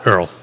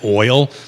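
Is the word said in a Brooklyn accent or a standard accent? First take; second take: Brooklyn; standard. First: The word is said with a Brooklyn vowel. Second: The word is said with a standard vowel. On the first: "They swallow the first half of the word and only kind of focus on the last" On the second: "they don't say oil"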